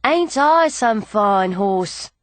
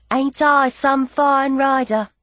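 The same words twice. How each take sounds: First: Slow, lightly voiced boastful horse; proud horse. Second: Slow, playful show-off line; playful boast. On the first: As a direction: let the horse show off, drawing it out. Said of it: "as if to say". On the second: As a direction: show off a little, stretching it out. Rider echoes the horse's boast. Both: A narrator's reading.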